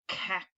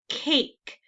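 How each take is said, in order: First: The vowel is short, like in 'cat'. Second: The vowel is long, saying its name. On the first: The speaker calls it wrong. "That doesn't sound right" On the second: The speaker calls it right. "So the A is going to say its name"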